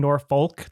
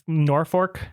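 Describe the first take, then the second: First: The middle consonant is pronounced as an L. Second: The middle consonant is pronounced as an R. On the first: "weren't doing Norfolk" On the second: "they were doing Norfolk"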